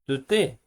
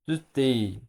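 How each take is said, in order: First: The final 'yi' syllable is left out. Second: The final 'yi' syllable is pronounced.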